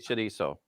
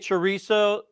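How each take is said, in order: First: It is pronounced with a Mexican Spanish accent. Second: It is pronounced with an American English accent. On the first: "In Mexico, I want to say they say" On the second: "Americans say"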